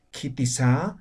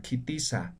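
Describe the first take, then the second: First: Kitisa with SA lifted up like a question; wrongly intoned question. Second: Kitisa let down softly at the end; no question intonation. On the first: Teacher shows what is not said in Aymara, rising question tone. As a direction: swing the last syllable of kitisa upward. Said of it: "Entonces no decimos". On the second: Teacher shows Aymara questions are not intoned, soft falling end. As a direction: ask kitisa with a falling, statement-like ending. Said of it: "Básicamente no se entona". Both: Shown as a demonstration.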